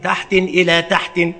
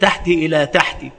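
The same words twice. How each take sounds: First: Both words end with tanwin. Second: Both words end in kasra. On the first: "بتنوينهما" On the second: "بكسرهما"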